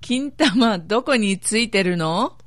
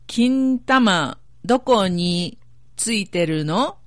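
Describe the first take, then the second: First: It is said at normal speed. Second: It is said slowly.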